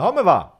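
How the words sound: The first word begins with a breathy H sound. This is how people from Livorno say it. "the C they are changing them in H"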